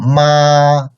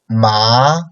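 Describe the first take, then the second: First: The pitch stays high and level. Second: The pitch rises upward. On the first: "the first tone is very high and flat" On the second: "second tone, like upcoming tone"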